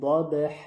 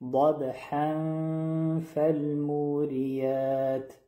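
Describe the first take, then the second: First: The word ends on a plain long vowel. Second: The ending is nasalized and runs into the next word. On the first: The reciter stops after this word. "در حالت وقف میشه" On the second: The reciter continues into the next word. "در حالت وصل میشه"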